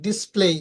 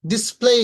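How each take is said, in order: First: Said in the usual way. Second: ডিসপ্লে as "dis-plei", end rising; careful model of ডিসপ্লে with gliding final vowel; long EI ending. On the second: Shown as a demonstration. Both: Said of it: "আমরা সাধারণত বলি কি".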